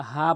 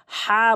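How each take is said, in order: First: "হা" as a light, plain h; small ha mistake. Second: "হা" pushed from mid-throat and held long. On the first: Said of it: "ছোট হা এনে উচ্চারণ করে". (ছোট হা দিয়ে "হা") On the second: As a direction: press a long "হা" out of the middle of the throat. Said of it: "বলতে হবে হলকের মাঝখান থেকে". (হলকের মাঝখান থেকে "হা") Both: Shown as a demonstration.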